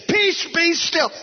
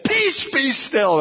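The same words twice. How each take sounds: First: Slow, much higher, drawn-out command; commanding the wind. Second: Slow, high, drawn-out command to the storm; commanding the wind. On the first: Pastor rebuking the wind a second time, slow high command. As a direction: order the storm to stop. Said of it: "I meant it with everything in me". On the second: Pastor rebuking the wind outside his house, slow high command. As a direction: order the wind to be still. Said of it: "I meant it with every". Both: Retold or imitated.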